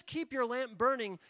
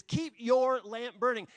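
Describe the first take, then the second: First: Said in the usual way. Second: "your" punched hard and loud, the whole line slow; loud, slow, with "your" driven home; stress on your. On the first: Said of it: "your is emphatic". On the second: Shown as a demonstration. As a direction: lean hard on "your" in "Keep your lamp burning". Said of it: "The word your is emphatic".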